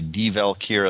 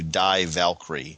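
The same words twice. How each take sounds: First: 'Die' is pronounced the German way, like 'dee'. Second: 'Die' is pronounced the English way, like 'dye'. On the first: The title is read as a German phrase. "I'm going to say Die Valkyrie ... I'm thinking it's going German" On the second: The title is read as an English phrase. "as opposed to Die Valkyrie"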